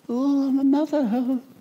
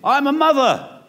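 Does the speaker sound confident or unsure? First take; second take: unsure; confident. First: It is said hesitantly, without confidence. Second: It is said with confidence and boldness.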